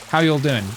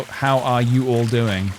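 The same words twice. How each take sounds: First: "you all" squeezed quickly into one word; quick, run together. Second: Slow "how are you all doing", each word apart; words said separately. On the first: Showing how I say it, "you all" quickly merged into one word. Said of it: "I say it quite quickly". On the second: Working out what y'all means, "are you all" said slowly in full. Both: Shown as a demonstration.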